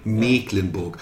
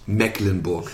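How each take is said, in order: First: The first vowel is long. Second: The first vowel is short. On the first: The speaker calls it right. "nein, Mecklenburg. Und zwar ist es das norddeutsche Dehnungs-CK" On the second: The speaker calls it wrong. "Es heißt nicht Mecklenburg"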